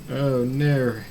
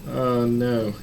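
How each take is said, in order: The two takes are said the same way.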